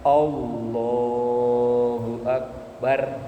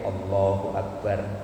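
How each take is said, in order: First: The phrase is drawn out long. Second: The phrase is said quickly and short. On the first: The movement to match is a long one. "kalau dari sujud ke berdiri ini kan agak panjang" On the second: The movement to match is a short one. "berarti takbirnya agak pendek"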